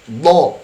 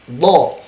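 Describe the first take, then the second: Both takes have the same delivery.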